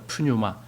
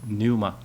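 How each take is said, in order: First: The word begins with an audible p sound. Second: The word begins with no p sound. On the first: The speaker calls it wrong. "푸뉴마 이렇게 읽어요" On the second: The speaker calls it right. "그냥 뉴마 이렇게 읽어야 돼요"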